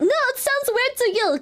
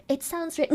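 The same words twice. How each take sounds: First: "No, it sounds weird to you" pitched high in protest; emphatic retort. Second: Softly mimicking the critics; quoted complaint. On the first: Real, not acted. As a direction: push back hard, throwing "weird to you" at the critics. Retorting to the quoted critics. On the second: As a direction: toss off the chatters' complaint quietly. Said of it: "They're like".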